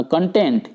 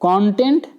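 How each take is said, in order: First: content as kun-TENT, light first syllable; stress on second syllable. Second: content as KON-tent, full first vowel; stress on first syllable. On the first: Teacher naming the verb sense, second syllable stressed. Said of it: "verb की तरह काम करता है". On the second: Teacher naming the ingredient sense, first syllable stressed. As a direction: put the weight on the opening syllable of content. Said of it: "ये होंगे ingredient हुआ". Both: Shown as a demonstration.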